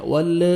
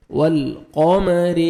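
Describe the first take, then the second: First: "وال" with the l shaken loose into an extra short vowel; lam wrongly released. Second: "والقمر" slow, the w joined to a held, unbounced l; still lam. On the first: Teacher shows the mistake to avoid, "وال" with a bounced l. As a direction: say "وال" as walla, letting the l bounce. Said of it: "ایسے نہیں پڑھنا". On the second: Teacher shows the right way, steady l in "والقمر". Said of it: "لام کو آپ نے ہلانا نہیں ہے". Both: Shown as a demonstration.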